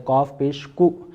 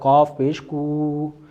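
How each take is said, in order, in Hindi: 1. अंतिम स्वर झटके से कटा हुआ है। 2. अंतिम स्वर लंबा खिंचा हुआ है। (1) "झटके के साथ भी आप नहीं पढ़ सकते" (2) "इसने भी बिल्कुल गलत पढ़ा"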